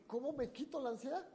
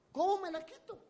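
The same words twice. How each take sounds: First: Said in the usual way. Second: High, louder cry of despair; desperate plea. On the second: Retold or imitated. Preacher voicing the anxious man, a desperate high cry. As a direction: beg for relief, pitched up high.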